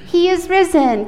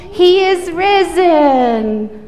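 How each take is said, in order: First: Said in the usual way. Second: Slow, loud proclamation; really loud. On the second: Shown as a demonstration. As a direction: call it out big and slow. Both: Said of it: "Can you say that really loud?".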